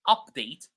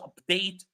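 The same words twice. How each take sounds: First: The stress is on the first syllable. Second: The stress is on the second syllable. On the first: It is used as a noun. "when these words are nouns, we stress the first syllable" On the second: It is used as a verb. "When they are verbs, we stress the second syllable"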